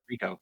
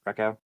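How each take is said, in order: First: The first vowel sounds like in 'ree'. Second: The first vowel sounds like in 'wreck'. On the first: The speaker calls it right. "it's actually Rico" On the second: The speaker calls it wrong. "Did I pronounce that right"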